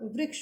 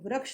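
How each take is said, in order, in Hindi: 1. पहला अक्षर 'ri' से बोला जाता है। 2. पहला अक्षर 'ra' से बोला जाता है। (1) "इसका उच्चारण रि होता है, ना कि र" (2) "तो वृक्ष नहीं होगा"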